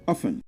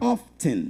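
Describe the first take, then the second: First: The T sound in the middle is left silent. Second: The T sound in the middle is clearly pronounced. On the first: "without a T sound, it is pronounced as often" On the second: "with a T sound, it's pronounced as often"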